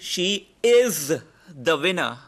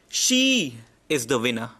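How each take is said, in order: First: The stress falls on the word is. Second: The stress falls on the word she. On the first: She is the winner right now, unlike past or future winners. "which means there had been winners in the past" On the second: Out of many people, she is the one who won. "She is the most important word"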